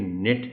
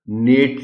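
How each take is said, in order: First: The vowel is reduced, like 'nit'. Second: The vowel is full, like 'nate'. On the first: The speaker calls it right. "बल्कि नेट है" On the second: The speaker calls it wrong. "इसको पढ़ना नेट नहीं है"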